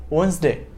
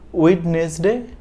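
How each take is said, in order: First: The middle d sound is left out. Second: The middle d sound is pronounced. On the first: The speaker calls it right. "D is silent and N S D is contracted" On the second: The speaker calls it wrong.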